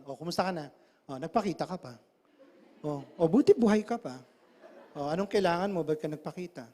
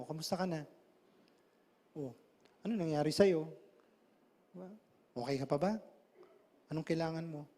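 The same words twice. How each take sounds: First: Cold. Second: Compassionate. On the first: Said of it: "Tanggalin mo compassion, iba dating nun". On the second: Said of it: "lagyan mo ng compassion". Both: Shown as a demonstration.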